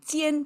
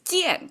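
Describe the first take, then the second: First: The pitch stays level throughout the syllable. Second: The pitch falls sharply across the syllable. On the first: It signifies a state of being. "this flat tone" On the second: It signifies a state of doing. "the fallen tone"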